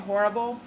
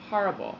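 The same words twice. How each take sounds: First: It is said in a Californian accent. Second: It is said in a New York accent. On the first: "I say horrible" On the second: "my dad says horrible"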